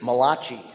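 The name is said in an Italian New Jersey accent.

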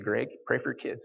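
It is said in an exaggerated put-on voice. This is not how the mother really sounds. The speaker calls it wrong. "I don't know why I did a voice like that"

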